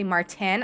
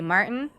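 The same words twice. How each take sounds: First: The middle T sound is clearly pronounced. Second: The middle T sound is dropped. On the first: This is how other people say it. "I don't say Martin" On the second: This is the speaker's own way. "I say Martin ... I don't pronounce the T"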